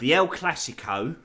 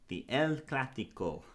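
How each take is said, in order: First: It is said in a plain English accent. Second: It is said in a put-on Spanish accent. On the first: "that's the last time I do that then" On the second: "It's a great accent"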